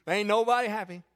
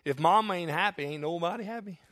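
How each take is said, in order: First: Said in the usual way. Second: Lightly voiced comedian, low and dropping off; comedian's punchline. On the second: Pastor quoting a comedian to the church, light comic punchline. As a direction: deliver it like a stand-up punchline, barely changed. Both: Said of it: "let me say it like one comedian says it".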